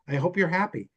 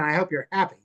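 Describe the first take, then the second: First: It is said sincerely and warmly. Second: It is said sarcastically and snidely.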